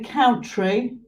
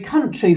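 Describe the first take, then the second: First: The first vowel sounds like 'ow'. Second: The first vowel sounds like 'uh'. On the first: The speaker calls it wrong. "you don't say country" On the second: The speaker calls it right. "you say country for that one"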